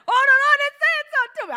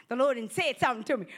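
First: High, loud and fast gush; bursting with excitement. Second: Said in the usual way. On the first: Retold or imitated. Preacher acting a believer eager to share, high loud fast gush. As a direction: blurt it out thrilled. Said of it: "You're like". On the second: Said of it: "you be like".

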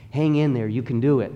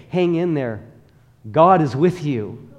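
First: Said in the usual way. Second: Emphatic encouragement. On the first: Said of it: "I need to get out of the habit of telling people". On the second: Shown as a demonstration. Preacher showing the congregation the better thing to say, emphatic. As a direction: say it like the better answer, with conviction. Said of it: "How much better that I say".

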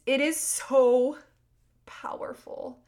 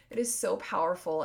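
First: "It is so" high, loud and stretched, "powerful" dropped to a whisper; emphatic. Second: Said in the usual way. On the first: Real, not acted. Host urging listeners on the practice, slow stress on SO. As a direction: stretch SO loudly, pause, then breathe out "powerful". Emphatic close to her teaching.

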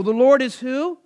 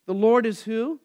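First: Louder and higher, full of confidence and wonder; confident marvel. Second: Said in the usual way. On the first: Shown as a demonstration. Teacher shows the class how to say it, with confident marvel. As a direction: ring it out with comfort and marvel. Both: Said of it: "you should say that with confidence and comfort and marvel".

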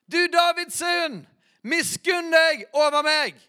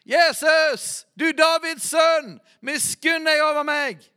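First: High, loud and slow, full-throated cry; even louder shout. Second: High, loud cry for mercy; shouted plea. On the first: Blind man cries out even louder to Jesus, a slow full shout. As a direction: shout it out harder and slower, holding nothing back. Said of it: "står det enda høyere". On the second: Blind beggar shouts to the passing Jesus, a loud high plea. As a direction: call out to him like a desperate beggar. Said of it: "Og han ropte". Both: Retold or imitated.

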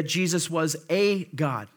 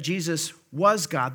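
First: "a" lengthened to a full "ay" before God; stress on A. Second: WAS held firmly, straight into God; stress on WAS. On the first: Preacher rejecting a false claim, stress on A. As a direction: punch the little word "a" as "ay". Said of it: "little a, little g, uh, a God". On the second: Preacher correcting the false claim, stress on WAS. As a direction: lean on "was", with no article before God. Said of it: "But that's not what it's saying here". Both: Shown as a demonstration.

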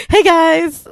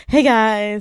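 First: Loud, high YouTuber greeting; YouTuber intro. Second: Louder YouTuber greeting; YouTuber intro. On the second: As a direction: open like a vlogger. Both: Pretend. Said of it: "I'm gonna do my YouTuber intro".

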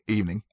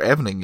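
First: "evening" as two syllables, EE-vning; EE-vning pronunciation. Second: "evening" in three syllables, EH-ven-ing; EH-vening pronunciation. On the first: Reviewer finishing the word evening, long ee, two syllables. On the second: Reviewer offering another evening, short e, three syllables. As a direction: open "evening" with a short e, as in seven. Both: Shown as a demonstration.

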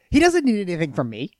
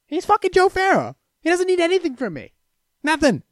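First: Said in the usual way. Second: High, exclaiming emphasis; emphatic. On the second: Real, not acted. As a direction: exclaim it in disbelief. Repeats line, second time emphatic.

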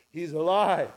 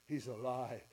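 First: Louder, lifted declaration; the realisation bursting out; joyful repeat. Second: Much softer, hushed to yourself; a quiet dawning that he lives; quiet realisation. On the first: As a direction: say it out with rising joy. Repeated with growing joy. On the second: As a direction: let it sink in quietly. Dawning realisation, then repeated. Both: Acted.

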